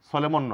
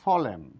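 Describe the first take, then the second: First: The final n is pronounced. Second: The final n is silent. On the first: The speaker calls it wrong. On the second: The speaker calls it right.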